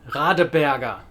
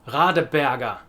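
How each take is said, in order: The two takes are said the same way.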